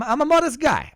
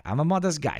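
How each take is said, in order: First: Much higher and louder, ironic squeal; mock modest. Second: Said in the usual way. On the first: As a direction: overplay the humility as a joke.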